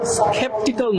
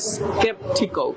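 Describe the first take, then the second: First: It is said without a k sound after s. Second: It is said with a k sound after s. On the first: The speaker calls it wrong. "উচ্চারণটা স্কেপটিক্যাল না হয়ে" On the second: The speaker calls it right. "এটা হবে স্কেপটিক্যাল, ক দিয়ে হবে"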